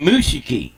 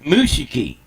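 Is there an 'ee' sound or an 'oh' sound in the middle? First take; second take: ee; ee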